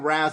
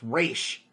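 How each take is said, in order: First: The name ends with a z sound. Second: The name ends with an sh sound. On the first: The speaker calls it wrong. "it's not freaking Raz like in Batman Begins" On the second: The speaker calls it right. "It's Raish. It's a foreign name"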